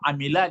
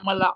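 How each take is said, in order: First: The middle vowel is an 'i' sound. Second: The middle vowel is an 'a' sound. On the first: The speaker calls it right. "amila dia" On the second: The speaker calls it wrong. "jangan dibaca amala"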